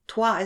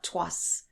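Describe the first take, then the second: First: It ends on the vowel, no final s. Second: It ends with a sounded final s. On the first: The speaker calls it right. "Toi is T R O I S" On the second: The speaker calls it wrong. "not tois"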